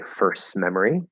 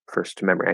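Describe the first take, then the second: First: The T at the end of first is dropped. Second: The T at the end of first is clearly pronounced. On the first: "Drop the T" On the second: "I can push out that T to make it a little clearer and enunciated"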